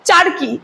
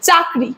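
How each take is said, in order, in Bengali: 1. r ধ্বনিটি k ধ্বনির আগে আসে। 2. k ধ্বনিটি r ধ্বনির আগে আসে।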